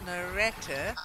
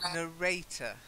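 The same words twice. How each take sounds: First: The middle syllable has a short vowel. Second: The middle syllable has a long A vowel. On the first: The speaker calls it wrong. "Not narrator, you're saying retta" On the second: The speaker calls it right. "you've got to get that long A sound"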